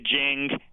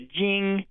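First: The vowel sounds like English jingle. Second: The vowel is spread, smiley and forward. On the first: The speaker calls it wrong. "as in jingle bells" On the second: The speaker calls it right. "a very sort of smiley forward I"

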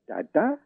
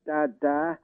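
First: The pitch rises across the word. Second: The pitch stays level, sounding pleading. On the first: It asks a question. "with a kind of rising tone" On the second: It gives a command. "with a kind of beseeching, level tone"

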